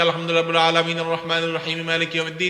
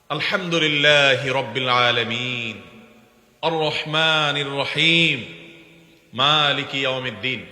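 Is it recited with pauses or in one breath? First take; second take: one breath; pauses. First: It runs verses together in one breath. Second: It pauses after each verse.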